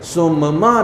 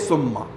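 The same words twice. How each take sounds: First: The two m sounds are split, lips closing twice. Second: The m sounds merge into one held closure. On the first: The speaker calls it wrong. "अलग अलग आपको ना बोलना पड़े" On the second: The speaker calls it right. "ताकि आप एक साथ बोलिए"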